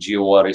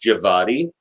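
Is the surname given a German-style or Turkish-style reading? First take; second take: Turkish; German. First: The surname is read in a Turkish style. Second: The surname is read in a German style. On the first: The name follows its Turkish origin. The speaker calls it right. "his parentage is actually Turkish. So the way you would say it would be Giawadi" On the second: The name is assumed to be German. The speaker calls it wrong. "because he was from Germany, that the n- name would be pronounced Javadi"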